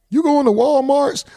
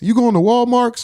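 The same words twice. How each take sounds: First: The store name ends with an added S sound. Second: The store name ends with an added X sound. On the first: "I added an S" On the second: "Or X"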